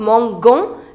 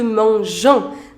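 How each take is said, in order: First: The g is hard, like in go. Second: The g is soft, like in measure. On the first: The speaker calls it wrong. "which you do not say" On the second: The speaker calls it right. "the pronunciation of G is je"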